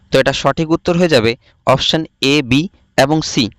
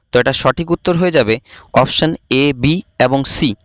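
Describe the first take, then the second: No difference in how they are said.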